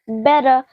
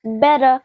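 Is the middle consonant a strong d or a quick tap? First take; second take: tap; tap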